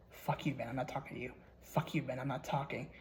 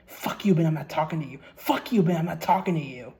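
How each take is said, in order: First: Said in the usual way. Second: Frantic yelling. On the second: Retold or imitated. The haunted player screaming at Ben, frantic yell. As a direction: scream it like you're losing it. Diary writer rejects Ben, rising.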